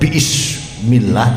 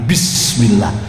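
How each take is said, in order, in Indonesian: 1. Hentian glotal memisahkan bi dari ismi. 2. Bi langsung menyambung ke smi tanpa hentian. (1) "mulane ora kok diwaca" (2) "tapi bismillah hamzah wasol"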